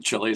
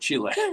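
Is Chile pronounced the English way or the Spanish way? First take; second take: English; Spanish. First: The name has an English pronunciation. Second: The name has a Spanish pronunciation.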